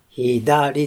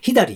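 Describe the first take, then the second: First: The word has its usual pitch accent. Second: The word has a reversed, Kansai-like pitch accent. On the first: "アクセントとタタタタってなってます" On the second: "これは関西弁になっちゃいますけれども、恣意的に逆アクセントになりますけれども"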